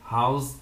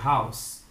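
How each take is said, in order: First: The word ends with a buzzing Z sound. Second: The word ends with a hissing S sound. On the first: The speaker calls it wrong. "House tá errado" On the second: The speaker calls it right. "é house"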